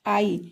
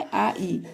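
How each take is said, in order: First: Said in the usual way. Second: आ ई as two vowels, "aa, ee"; separate vowel sounds. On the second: Shown as a demonstration. Teacher showing the joined vowels, आ ई said one by one. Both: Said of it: "जुड़ा हुआ है".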